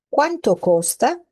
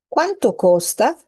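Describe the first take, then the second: The two takes are said the same way.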